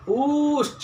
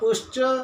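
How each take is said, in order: First: The u vowel is held for three beats. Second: The u vowel is held for one beat.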